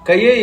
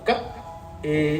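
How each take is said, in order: First: The two syllables run together without a break. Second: There is a short break between the syllables. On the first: The speaker calls it wrong. "కయ్యే ఏ లక్షణం అని చదివారంటే ఫలితం పోతుంది" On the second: The speaker calls it right. "కా తర్వాత ఆపి ఏ అనాలి"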